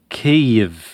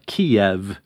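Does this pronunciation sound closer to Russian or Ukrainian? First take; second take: Ukrainian; Russian. First: The name is said the Ukrainian way. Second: The name is said the Russian way. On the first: It shows respect to Ukrainians. "So we're going with the Ukrainian pronunciation, or at least an approximation" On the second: It is the form familiar to many Americans. "which is actually closer to the Russian pronunciation"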